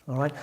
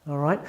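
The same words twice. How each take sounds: No difference in how they are said.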